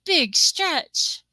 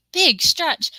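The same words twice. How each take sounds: First: High cooing, rising at the end; cooing at a cat. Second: High, loud cooing at a pet; cooing at a cat. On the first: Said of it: "nobody says". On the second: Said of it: "everybody has to say". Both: Retold or imitated. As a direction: coo it like praising a cat.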